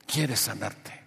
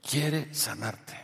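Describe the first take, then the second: First: Said in the usual way. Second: Very slow, soft "Quiere sanarte"; slow emphasis. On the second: Real, not acted. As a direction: draw out "Quiere", then let "sanarte" land softly. Repeats promise slowly for emphasis.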